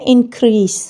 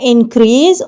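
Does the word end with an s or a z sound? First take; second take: s; z. First: The word ends with an s sound. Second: The word ends with a z sound. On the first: The speaker calls it right. "Actual word है" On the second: The speaker calls it wrong. "ये जो जेड की हम sound देते हैं ये नहीं देनी"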